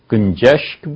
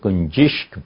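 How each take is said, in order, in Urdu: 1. 'sh' کی آواز سے پہلے کا سر 'a' ہے۔ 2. 'sh' کی آواز سے پہلے کا سر 'i' ہے۔ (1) "شین پہ زبر بھی ہے" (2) "شین پہ زیر بھی"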